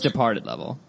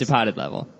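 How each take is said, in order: First: It is said in a plain, neutral accent. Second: It is said in a Boston accent. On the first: The speaker calls it wrong. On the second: The speaker calls it right.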